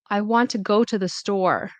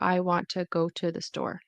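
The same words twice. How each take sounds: First: Content words are stressed; small words are reduced. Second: Every word gets roughly equal stress. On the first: The speaker calls it right. "instead of saying" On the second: The speaker calls it wrong. "very equal in terms of stress on each syllable"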